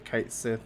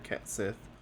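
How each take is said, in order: First: The first syllable sounds like 'kite'. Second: The first syllable sounds like 'ket'. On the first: "a lot of people say Kite Sith" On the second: "or Ket Sith"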